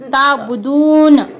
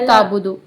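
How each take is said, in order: First: The word ends with a final n sound. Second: The word ends without a final n sound. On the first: The speaker calls it right. "नून" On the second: The speaker calls it wrong. "नून क्यों छोड़ दे रही तुम?"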